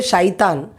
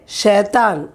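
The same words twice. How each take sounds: First: Shaitan said as shy-tan; the wrong way: Shaitan, with an eye sound; wrong pronunciation. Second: Shaitan said as shay-tan; correct pronunciation. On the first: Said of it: "We don't say". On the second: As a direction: say Shaitan with a short e sound. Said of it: "We say". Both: Shown as a demonstration.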